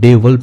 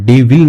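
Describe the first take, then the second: First: The second syllable is reduced, nearly without vowel. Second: The second syllable has a full 'i' vowel. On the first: The speaker calls it right. "डेवल पढ़ेंगे इसको" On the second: The speaker calls it wrong. "डेविल नहीं पढ़ेंगे"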